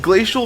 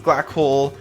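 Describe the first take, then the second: First: The name is said as Glacial. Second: The name is said as Glackle. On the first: The speaker calls it right. "Glacial makes more sense" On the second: The speaker calls it wrong. "I pronounced it as"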